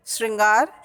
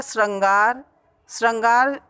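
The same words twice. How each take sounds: First: श्रृंगार with "shrin" at the start; correct vowel. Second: श्रृंगार said with "shran" in place of "shrin"; mispronounced श्रृंगार. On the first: Teacher giving the correct word, श्रृंगार as "shringaar". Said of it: "श्रृंगार शुद्ध शब्द है". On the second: Teacher showing the wrong word, श्रृंगार said as "shrangaar". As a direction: open श्रृंगार with an a sound, "shrangaar". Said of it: "अशुद्ध शब्द है". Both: Shown as a demonstration.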